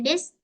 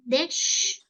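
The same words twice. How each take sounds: First: THIS with a plain s ending instead of sh; mispronounced DISH as THIS. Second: DISH with a clear final sh; correct DISH. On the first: Teacher shows the learner the error, THIS with s for sh. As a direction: end THIS on a hissed s, as a botched "dish". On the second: Teacher models the word for the learner, correct DISH ending in sh. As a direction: end DISH on a long, hushing sh sound. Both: Shown as a demonstration. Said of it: "so it means wrong".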